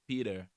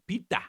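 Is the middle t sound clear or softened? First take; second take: softened; clear. First: The middle t is softened, sounding like Peter. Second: The middle t is pronounced clearly and crisply. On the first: "but now it becomes Peter" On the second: "as we'll say it in Cameroon"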